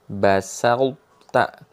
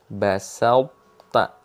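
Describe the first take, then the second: First: The merged t sound keeps a heavy quality. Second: The same.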